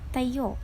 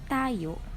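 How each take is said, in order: First: The stress is on the second syllable. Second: The stress is on the first syllable. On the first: It means standing. "rising intonation in the second syllable. That is why the correct pronunciation is tayo" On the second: It means us. "rising intonation in the first syllable, and that is why we pronounce it as tayo"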